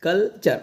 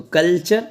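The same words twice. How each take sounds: First: culture split as "kal - char"; two separate syllables. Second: Said in the usual way. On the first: Shown as a demonstration. Teacher explaining double syllable, culture in two parts. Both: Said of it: "double syllable है".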